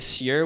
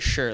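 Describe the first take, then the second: First: It begins with a plain s, no sh. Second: It begins with an sh sound. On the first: The speaker calls it wrong. "We don't say sure" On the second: The speaker calls it right. "like an S H"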